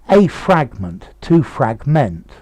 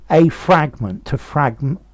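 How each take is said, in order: No difference in how they are said.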